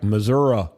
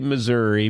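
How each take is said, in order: First: The word ends with an 'ah' sound. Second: The word ends with an 'ee' sound. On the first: It sounds fake and practiced. The speaker calls it wrong. "That's not permitted because it sounds fake" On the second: It follows the spelling of the name. The speaker calls it right. "It's spelled with an I, not an A H"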